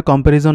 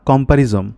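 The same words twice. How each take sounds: First: কম্প্যারিজন ending in an n sound; final N in কম্প্যারিজন. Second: কম্প্যারিজম ending in an m sound; final M in কম্প্যারিজম. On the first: Tutor checking a doubtful word, কম্প্যারিজন ending in -n. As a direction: say কম্প্যারিজন with -jon at the end. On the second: Tutor correcting himself mistakenly, কম্প্যারিজম ending in -m. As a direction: say কম্প্যারিজম with -jom at the end. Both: Shown as a demonstration. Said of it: "আমার উচ্চারণে ভুল আছে".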